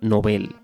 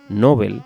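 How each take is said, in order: First: The stress is on the last syllable. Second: The stress is on the first syllable. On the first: "es palabra aguda" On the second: "la pronunciación llana"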